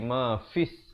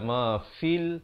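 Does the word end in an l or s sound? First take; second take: s; l. First: The word ends with an s sound. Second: The word ends with an l sound. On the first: The speaker calls it right. "tapi ma fis, terus masuk di atas sin yang bersabdu" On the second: The speaker calls it wrong. "dia tak baca"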